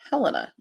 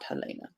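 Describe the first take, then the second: First: The stress falls on the first syllable. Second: The stress falls on the second syllable. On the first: This is how the state capital is said. "if this were Montana, the capital is Helena" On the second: This is how the author's name is said. "not Helena"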